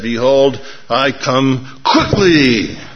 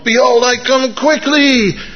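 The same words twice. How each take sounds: First: It is said with normal energy. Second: It is said with extra energy.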